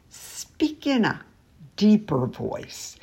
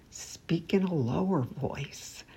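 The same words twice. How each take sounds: First: Much lower pitch, slowed on deeper voice. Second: Much softer, low demo voice; lower voice. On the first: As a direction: sink the voice down deep to demonstrate. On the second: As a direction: drop the volume right down to show it. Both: Shown as a demonstration.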